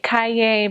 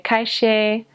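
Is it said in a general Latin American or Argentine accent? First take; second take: Latin American; Argentine. First: It is said in a general Latin American accent. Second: It is said in an Argentine accent, with sh.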